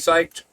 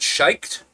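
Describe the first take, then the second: First: The word begins with an 's' sound. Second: The word begins with a 'sh' sound. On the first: The speaker calls it right. "I know it should be psyched" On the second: The speaker calls it wrong. "I always pronounce it shiked, but I know it's that's bad"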